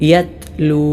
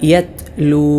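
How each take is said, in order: No difference in how they are said.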